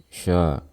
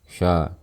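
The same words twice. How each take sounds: No difference in how they are said.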